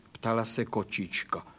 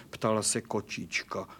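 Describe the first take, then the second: No difference in how they are said.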